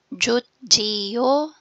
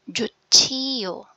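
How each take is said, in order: First: The middle consonant is a plain j sound. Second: The middle consonant is an aspirated ch sound.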